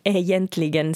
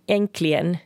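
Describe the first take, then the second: First: The word is said fully, close to spelling. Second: The word is shortened, with syllables dropped. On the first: This is how Finland Swedes say it. "medan egentligen säger vi här" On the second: This is how many people in Sweden say it. "Säger många i Sverige"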